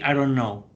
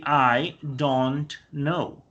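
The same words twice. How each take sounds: First: The phrase is said fast and run together. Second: The phrase is said slowly with each word clear. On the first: "when you speak very fast, you say" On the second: "if you speak very slowly"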